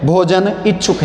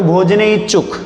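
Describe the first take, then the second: First: भोजन इच्छुक said as two separate words, clear break; split into two words. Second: भोजन इच्छुक run together as one sandhi word, भोजनेच्छुक; read as one joined word. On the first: Teacher splits the sandhi for students, two clean words. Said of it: "संधि करके यदि अपन पढ़ते हैं". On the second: Teacher reads the combined word to the class, run together. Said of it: "अगर मिला के पढ़ोगे तो". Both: Shown as a demonstration.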